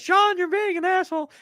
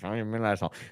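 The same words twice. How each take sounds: First: It is said loudly. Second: It is said quietly.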